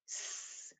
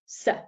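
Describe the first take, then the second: First: The s sound is hissed with no vowel after. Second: The s sound is followed by a short uh vowel. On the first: The speaker calls it right. "We pronounce them without the uh on the end" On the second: The speaker calls it wrong.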